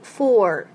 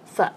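First: The word is said fully with its vowel. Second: The word is reduced to a light weak sound. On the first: The speaker calls it wrong. "不读for" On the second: The speaker calls it right. "这里的for doing something for 是一个很轻的音，读作f"

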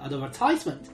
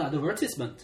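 First: It is said with an American accent. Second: It is said with a British accent.

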